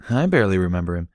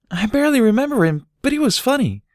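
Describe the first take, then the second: First: Said in the usual way. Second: Put-on much higher, louder child voice; a small filly remembering fondly; little Dinky.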